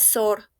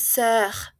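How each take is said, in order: First: The vowel is a plain o sound. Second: The vowel is a rounded eu sound. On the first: The speaker calls it wrong. "No es sor" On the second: The speaker calls it right. "es sœur"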